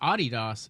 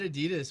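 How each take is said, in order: First: The name has its European pronunciation. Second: The name has its familiar American pronunciation. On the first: "the proper way of saying it is" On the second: "I always said Adidas my whole life"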